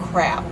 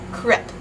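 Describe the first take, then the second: First: It is said with an English accent. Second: It is said with a Dutch accent. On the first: "the English pronunciation of the word ... is crab" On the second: "say crab with a Dutch accent, which makes it sound like crepe"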